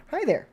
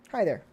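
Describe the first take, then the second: First: "Hi there" lifted much higher in a cheery sing-song; sing-song greeting. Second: Said in the usual way. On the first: Shown as a demonstration. Streamer greeting a chat viewer, high sing-song hello. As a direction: chirp "Hi there" brightly up high.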